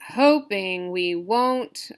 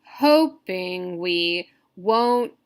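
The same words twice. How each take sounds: First: "Hoping we won't" slow but connected, stress on "Hoping"; lightly stretched "Hoping we won't", flowing on without long breaks; preferred stress pattern. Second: "Hoping we won't" drawn out very slowly, syllable by syllable; "Hoping we won't" in slow, separated beats; dactylic scansion. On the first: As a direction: say "Hoping we won't" as one measured phrase. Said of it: "I would say something like". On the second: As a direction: lean on the start of "Hoping", stretching every beat. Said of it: "One stress, two unstressed". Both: Shown as a demonstration.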